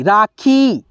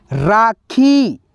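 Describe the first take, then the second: First: Said in the usual way. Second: राखी said very slowly, the final ई held long; drawn-out long ई. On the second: Shown as a demonstration. Teacher showing students the long ई in राखी, drawn out. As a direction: stretch the ई in राखी far out. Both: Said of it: "खींच करके उच्चारण है".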